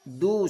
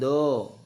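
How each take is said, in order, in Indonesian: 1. Bunyi vokalnya jelas 'u'. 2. Bunyi vokalnya seperti 'o'. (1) "sempurna bunyi u" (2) "bukan do"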